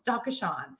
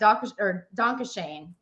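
First: It is said with a German-like pronunciation. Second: It is said with a Southern American accent. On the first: The speaker calls it right. "It's Dankeschön" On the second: The speaker calls it wrong. "is what I would say. That is so incorrect"

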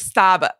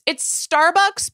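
First: The word is said without the R sound. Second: The word is said with the R sound. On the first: "but without the R. It's like Starbucks. Like, it's like with a really thick Boston accent" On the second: "it's Starbucks"

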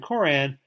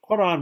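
First: It begins with a plain English k sound. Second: It begins with a deep Arabic throat consonant. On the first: "rather than Quran" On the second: "to pronounce it correctly in Arabic"

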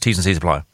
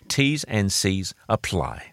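First: The phrase is rattled off very fast. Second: The phrase is said slowly and clearly. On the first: "as we say really quickly, like those American ads" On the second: "I'll say it slowly"

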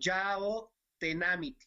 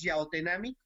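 First: The name is said more slowly. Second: The name is said at normal speed.

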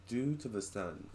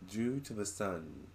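First: It is said imitating the spirit's accent. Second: The same.

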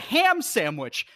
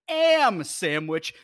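First: The first word begins with an h sound. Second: The first word begins without an h sound. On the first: The speaker calls it right. "It's a ham sandwich" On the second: The speaker calls it wrong. "not an am sandwich"

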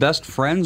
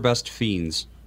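First: The second word is said with an R sound. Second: The second word is said without an R sound. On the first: "Is it pronounced Best Friends" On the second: "It is Best Fiends"

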